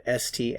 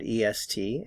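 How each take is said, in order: First: Name the letters "S T" one by one, the plain ending. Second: Name "E S T" letter by letter, the E added first; added E spelled out. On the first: Teacher spells the old ending "S T" for students, letter by letter. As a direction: spell out "S T" as two clear letters. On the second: Teacher spells the new ending "E S T" for students, letter by letter. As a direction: spell out "E S T" as three clear letters. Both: Shown as a demonstration. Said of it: "So instead of".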